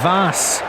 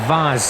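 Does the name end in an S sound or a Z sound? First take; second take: S; Z. First: The name ends with a hissing S sound. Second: The name ends with a buzzing Z sound. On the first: "someone says it Vas" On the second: "like the S is a Z"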